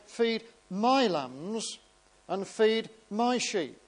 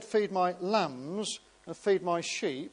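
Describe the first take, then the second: First: The stress is on my. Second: The stress is on lambs and sheep.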